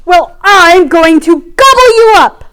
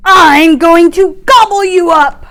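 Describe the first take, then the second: First: Loud, high thundering roar; roaring troll. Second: Big fish threat. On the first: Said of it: "the troll thundered". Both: Acted.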